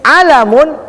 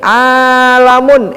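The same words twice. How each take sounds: First: The first vowel is kept short. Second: The first vowel is held long. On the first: It means a flag. "Tapi kalau ainnya pendek" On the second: It means the universe. "Kalau ainnya panjang"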